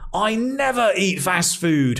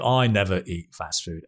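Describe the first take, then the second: First: It is said in an angry tone. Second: It is said in a flat, bored tone. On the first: The speaker calls it right. "You can get angry" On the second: The speaker calls it wrong. "And it's so boring"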